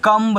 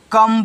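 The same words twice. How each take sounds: First: कम्ब with an audible b after the m; wrong sounded B. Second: कम said with no b after the m; silent B. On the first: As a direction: release a b at the end of कम्ब. (कम्ब में ब की आवाज़ के साथ) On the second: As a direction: end कम on a closed m. (कम में ब silent) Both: Shown as a demonstration. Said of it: "कम्ब नहीं पढ़ना है".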